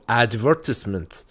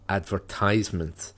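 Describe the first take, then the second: First: The stress falls as in British speech. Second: The stress falls as in American speech.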